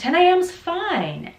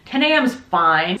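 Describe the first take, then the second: First: The last word is long with an up-down tune. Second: The last word is short and flat. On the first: The speaker calls it right. "And that sounds really nice and friendly" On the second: The speaker calls it wrong.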